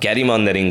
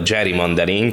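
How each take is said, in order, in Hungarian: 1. Az eleje az eredeti vezetéknévhez hasonlóan hangzik. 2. Az eleje a megváltoztatott módon hangzik. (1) "ez a gerrymandering" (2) "azóta gerrymandering, ami a helytelen kiejtése"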